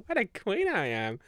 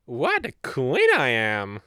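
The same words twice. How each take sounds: First: Higher, giggling repeat; laughing. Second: Louder, slow, proud declaration; sassy self-praise. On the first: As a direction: laugh through the brag. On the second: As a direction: savor each word like royalty. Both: Pretend.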